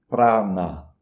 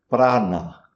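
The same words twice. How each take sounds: No difference in how they are said.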